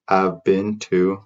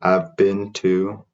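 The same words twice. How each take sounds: The two takes are said the same way.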